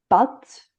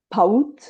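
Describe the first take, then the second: First: The vowel is a plain, single a sound. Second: The vowel glides into a diphthong like aou. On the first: "à la place de pâte" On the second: "on le prononce paout"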